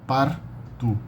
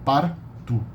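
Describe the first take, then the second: Both takes have the same delivery.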